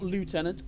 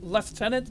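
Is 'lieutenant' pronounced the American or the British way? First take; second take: American; British. First: It is said with an American pronunciation. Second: It is said with a British pronunciation. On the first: "not Lieutenant" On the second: "Lieutenant again, I'm British. we pronounce it Lieutenant"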